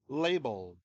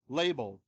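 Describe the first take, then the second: No difference in how they are said.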